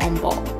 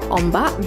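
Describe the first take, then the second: First: The second vowel is an 'o' sound. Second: The second vowel is an 'a' sound. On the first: This is the regional dialect form. "in Terengganu, I guess the dialect or the slang is called Ombok" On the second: This is the standard Malaysian form. "in Malaysia, wave is called Ombak"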